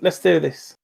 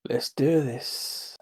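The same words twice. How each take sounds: First: It is said in a normal speaking voice. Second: It is said in a put-on character voice. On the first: It belongs to the intended character. The speaker calls it right. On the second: It belongs to a different character. The speaker calls it wrong.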